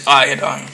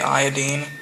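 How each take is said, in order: First: The ending does not rhyme with chlorine. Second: The ending rhymes with chlorine. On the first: This is the common way people say it. The speaker calls it wrong. "people say iodine" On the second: This is the proper way to say it. The speaker calls it right. "It's really iodine"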